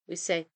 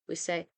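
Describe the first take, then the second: The two takes are said the same way.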